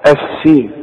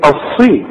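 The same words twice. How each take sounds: First: "السين" with a thin, light s; wrong light s. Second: "الصي" with a full, heavy ṣād; heavy emphatic sad. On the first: Retold or imitated. Teacher mimics learners' mistake, thin light s in "السين". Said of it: "في ناس تيجي تقول لك". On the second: Shown as a demonstration. Teacher corrects the student, heavy emphatic ṣ in "الصي". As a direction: thicken the s in "الصي", back of tongue raised. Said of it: "اذا هتقول ايه؟".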